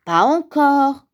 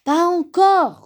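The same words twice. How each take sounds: First: Louder, higher, slow grumble; grumbling. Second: High, loud, drawn-out protest; exasperated griping. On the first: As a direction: grumble it out, mildly fed up. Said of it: "grommela Grand Ours". (grommeler, un peu agacé) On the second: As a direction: snap back, losing patience. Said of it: "rouspéta Grand Ours". (rouspéter, exaspéré) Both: A narrator's reading.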